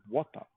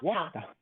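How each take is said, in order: First: It is said in a British accent. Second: It is said in an Australian accent.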